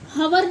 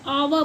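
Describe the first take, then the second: First: The word begins with an h sound. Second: The word begins with a vowel sound. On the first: The speaker calls it wrong. "इसे हम हवर नहीं पढ़ते हैं" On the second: The speaker calls it right. "इसको हम आवा पढ़ते हैं"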